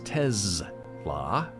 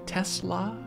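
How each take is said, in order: First: The middle consonant is a buzzing Z sound. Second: The middle consonant is a hissing S sound. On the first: "Elon Musk says Tesla ... it is a Z pronunciation instead of an, an S" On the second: "a lot of people say Tesla"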